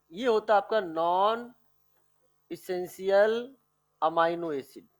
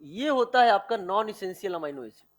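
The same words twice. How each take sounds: First: Term broken up with pauses for note-takers; slow, chunk-by-chunk dictation. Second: Said in the usual way. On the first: Shown as a demonstration. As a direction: dictate it slowly, pausing before essential and amino. Repeats it for note-taking.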